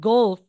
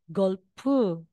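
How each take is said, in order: First: It is said with a plain English accent. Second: It is said with a Korean accent, added vowel.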